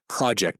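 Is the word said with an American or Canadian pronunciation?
American. The word has an American pronunciation. "that's how Americans say it"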